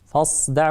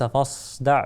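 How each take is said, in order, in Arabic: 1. صوت السين خالص وضيق. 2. صوت السين ينتشر بهواء نحو الشين. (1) "فحاول تأتي بها" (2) "وليس"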